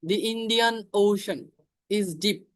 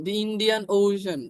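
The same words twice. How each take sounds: First: Drawn out, with "The" said as "দি"; teacher modelling the article; slow example. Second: Drawn out, with "The" said as "দি"; teacher repeating the example; slow example again. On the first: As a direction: say "The Indian Ocean" slowly, with "The" as "দি". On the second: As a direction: repeat "The Indian Ocean" slowly. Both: Shown as a demonstration. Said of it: "দি বসবে".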